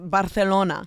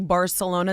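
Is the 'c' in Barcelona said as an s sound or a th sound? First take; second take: th sound; s sound. First: The 'c' is said as a lisped th sound. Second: The 'c' is said as a plain s sound. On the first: The speaker calls it right. "It's it's Barcelona" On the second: The speaker calls it wrong. "they don't say Barcelona"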